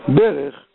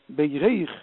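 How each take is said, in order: First: The stress is on the first syllable. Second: The stress is on the last syllable. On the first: It is a noun. "ברך זה שם עצם, זה מלעיל" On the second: It is a verb. "שזה לשון פועל ... מלרע"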